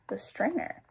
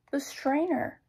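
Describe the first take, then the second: First: Rising, puzzled echo on STRAINER; puzzled question. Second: High-pitched acted announcement of an idea; high storybook eureka; sudden idea. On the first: Other character questions the idea. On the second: Sudden idea, then questioned. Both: A narrator's reading.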